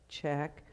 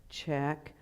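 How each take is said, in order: Both takes have the same delivery.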